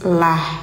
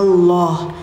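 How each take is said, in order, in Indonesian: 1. Bunyi L-nya tipis dan jernih. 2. Bunyi L-nya tebal dan gelap. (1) "bunyinya tipis"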